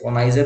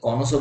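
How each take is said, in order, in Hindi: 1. शब्द 'eye-zer' ध्वनि से खत्म होता है। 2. शब्द 'oh-so' ध्वनि से खत्म होता है। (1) "कॉनाइजर नहीं पढ़ते" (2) "कॉनोसो बोलते हैं"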